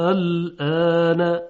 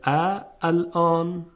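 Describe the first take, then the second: First: الان recited slowly and louder with a long stretched آ; Quranic recitation of a word. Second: ا الان with a separate hamza before a long آ; original form shown. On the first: Teacher recites الان for the class, slow and drawn out. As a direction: intone الان with a full six-beat madd. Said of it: "خب ببینید". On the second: Teacher shows the old form ا الان, slowly. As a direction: split it as ا then الان, slowly. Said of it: "در حقیقت اینطوری بوده". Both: Shown as a demonstration.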